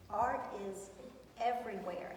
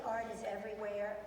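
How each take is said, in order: First: "art is ... everywhere", pausing before EVERYWHERE; emphatic pauses. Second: Said in the usual way. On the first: Real, not acted. Teacher insisting to students art is everywhere, emphatically paused. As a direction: set EVERYWHERE apart with a deliberate pause.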